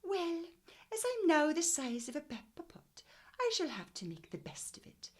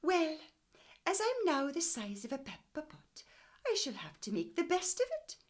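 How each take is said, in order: First: High Welsh lilt on Mrs Pepperpot's words; Welsh accent. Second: Put-on high, loud little old woman talking to herself; old woman's voice. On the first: Shown as a demonstration. Teacher rereading Mrs Pepperpot's line in a Welsh accent. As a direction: read it in your best Welsh accent. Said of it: "in your best Welsh accent". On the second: Mrs Pepperpot talking to herself, high old woman voice. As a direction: voice the tiny old lady.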